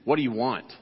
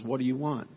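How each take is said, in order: First: It is said in a harsh, unfriendly tone. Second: It is said in a gentle, loving tone. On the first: The asker is annoyed or unwelcoming. "You could have somebody who says to you" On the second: The asker cares and wants to help. "like a loving parent who kneels down to their child and says"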